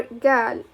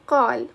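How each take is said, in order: First: قال opening on g instead of q; hard-g dialect form of قال; dialect g pronunciation. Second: قال opening on a back-of-throat q; full q sound in قال; formal-style pronunciation. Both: Shown as a demonstration. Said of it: "pronounce it like".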